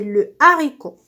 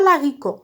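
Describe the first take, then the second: First: The article is said in full, without linking. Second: The article is elided and linked to the noun. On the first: The speaker calls it right. "c'est le haricot" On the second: The speaker calls it wrong. "C'est pas l'haricot"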